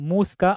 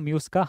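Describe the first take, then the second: First: The first syllable sounds like 'moo'. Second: The first syllable sounds like 'myoo'. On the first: "Latin ಪದ ಭಾಷೆಯಲ್ಲಿ ಅದು ಮೂಸ್ಕಾ ಅಂತ ಹೇಳಿ ಪ್ರನೌನ್ಸ್ ಮಾಡ್ತಾರೆ" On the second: "however you want you can ಪ್ರನೌನ್ಸ್"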